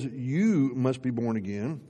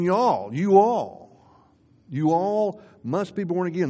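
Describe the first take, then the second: First: Said in the usual way. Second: "all" punched higher and louder each time; stress on all. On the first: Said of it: "that's the you in verse seven". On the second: Shown as a demonstration. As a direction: lean hard on "you all" to show it means everyone. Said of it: "he's not just talking to Nicodemus".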